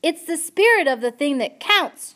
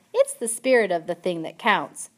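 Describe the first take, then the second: First: Loud high repeat for a deaf listener; shouting. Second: Said in the usual way. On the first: A narrator's reading. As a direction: shout every word clearly. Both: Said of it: "shouted Pea".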